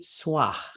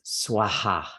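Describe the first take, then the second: First: It ends in a breath with no repeated vowel. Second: The vowel repeats after the breath at the end. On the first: "it could just be swah" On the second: "another variation is swaha. And you're hearing that A again"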